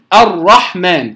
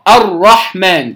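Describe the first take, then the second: No difference in how they are said.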